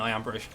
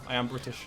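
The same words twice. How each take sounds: First: It is said in his ordinary accent. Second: It is said in a put-on British accent.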